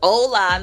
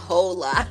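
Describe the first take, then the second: First: The word starts with a vowel, no H sound. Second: The word starts with an audible H sound. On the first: The speaker calls it right. "it's Spanish, so they don't pronounce it" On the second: The speaker calls it wrong. "not hola"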